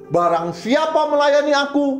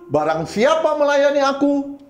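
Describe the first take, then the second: No difference in how they are said.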